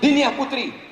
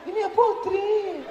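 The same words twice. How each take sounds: First: The voice is firm and businesslike. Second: The voice is soft, drawn-out and seductive.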